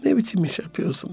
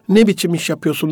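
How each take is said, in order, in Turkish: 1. Yumuşak, gülümseyen bir tonla söylenmiş. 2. Sert, kaba bir tonla söylenmiş. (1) "böyle yumuşak bir ses tonuyla gülümseyerek" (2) "katı ses tonuyla"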